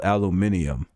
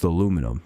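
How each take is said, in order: First: "aluminium" with five syllables, al-yoo-MIN-ee-um; British pronunciation. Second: Said in the usual way. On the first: Shown as a demonstration. Streamer mocking a British word, "aluminium" said al-oo-MIN-ee-um. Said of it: "They also say this wild ass word". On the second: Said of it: "That's just aluminum".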